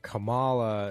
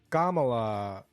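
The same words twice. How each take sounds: First: It is pronounced the Western way. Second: It is pronounced the ethnic way. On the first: "Kamala is like the Western way of saying it" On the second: "Kamala is like the ethnic way of saying it"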